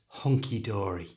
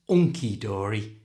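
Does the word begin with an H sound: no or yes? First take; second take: yes; no. First: It starts with a clear breathy H sound. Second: It starts with the vowel, with no H sound. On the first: The speaker calls it right. "it's hunky dory" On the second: The speaker calls it wrong. "It's not unky dory"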